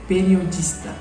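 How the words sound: The consonant before the t is an s sound. "gramaticalmente correto falando"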